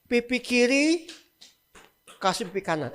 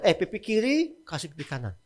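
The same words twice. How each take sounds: First: Slow, deliberate. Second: Said in the usual way. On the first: Shown as a demonstration. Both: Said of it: "Masuk akal nggak?".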